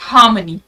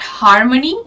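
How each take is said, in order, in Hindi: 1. r की आवाज़ silent है। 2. r की आवाज़ साफ़ बोली जाती है। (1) "आर is silent here" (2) "it's not"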